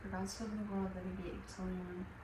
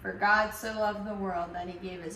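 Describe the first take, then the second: First: It is said quietly, almost mouthed. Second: It is said loudly and grandly.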